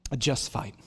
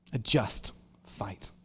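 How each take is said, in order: First: Said in the usual way. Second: A just fight, slow and lower; slow low restatement of A just fight; slow, weighty repeat. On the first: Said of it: "repeats title". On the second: Shown as a demonstration. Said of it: "repeated slow and low".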